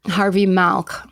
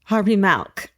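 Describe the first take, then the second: First: Milk said as malk with a flat a; Harvey Malk, California a; Harvey Milk with an a sound. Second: Milk said as malk with a flat a; Harvey Milk with an a sound. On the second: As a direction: echo Harvey Malk, California a. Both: Shown as a demonstration. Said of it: "the California A".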